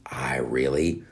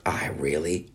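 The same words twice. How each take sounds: First: Said in the usual way. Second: Breathy secret whisper, no voice. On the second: Real, not acted. Admitting a guilty wish to listeners, whispered. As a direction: confess it in a hushed whisper. Whispered aside about wanting it.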